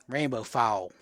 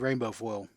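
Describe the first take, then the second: First: It is said in a Georgia Southern accent. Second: It is said in the speaker's plain accent.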